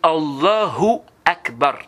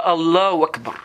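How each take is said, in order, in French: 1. La syllabe 'hu' après Allah est prononcée. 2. La syllabe 'hu' après Allah est omise. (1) "C'est Allahu Akbar" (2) "C'est pas Allahu Akbar"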